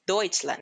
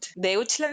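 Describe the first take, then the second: First: The vowel pair is said as one 'oy' sound. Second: The vowel pair is said as separate 'eh-oo'. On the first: "pero es Deutschland" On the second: "Deutschland se escribe"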